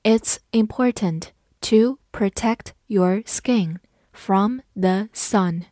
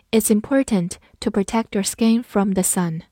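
First: Slow, deliberate read-along. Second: Said in the usual way. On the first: Shown as a demonstration. Teacher reads slowly for class to follow. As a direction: read it slowly word by word for students. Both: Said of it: "跟着我慢读一遍".

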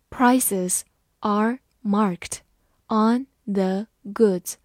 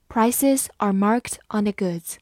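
First: Very slow, word by word; slow reading. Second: A steady, natural pace; normal pace reading. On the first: Teacher reading slowly for the class. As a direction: read it slowly so students follow. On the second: Teacher reading at normal pace after the slow take. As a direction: read it through once at normal pace. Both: Shown as a demonstration. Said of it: "慢慢来读".

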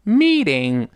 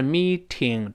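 First: American "meeding" for meeting; voiced T in meeting. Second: Meeting with a crisp aspirated T; slow meeting, T fully released; wrong-way demo, "mee-TING" with sharp T in meeting; hard T in meeting. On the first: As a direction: soften the T of meeting to a d. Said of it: "字母T得有浊化". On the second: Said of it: "不是meeting". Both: Shown as a demonstration.

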